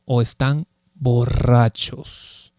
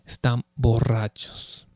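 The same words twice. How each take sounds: First: Drawn out, very slow o están borrachos. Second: Están borrachos dropped much softer; softer repeat. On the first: Preacher dwelling on the mockers' claim, slow and drawn out. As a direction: stretch every syllable of están borrachos. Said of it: "repeated quieter". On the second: Preacher echoing the mockers' charge, hushed aside. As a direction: let Están borrachos fall away, hushed. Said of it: "repeated slower". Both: Shown as a demonstration.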